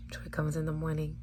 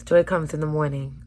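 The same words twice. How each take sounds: First: Soft whispered promise; hushed whisper. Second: Said in the usual way. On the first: Shown as a demonstration. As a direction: breathe it like a secret. Repeats line as whisper.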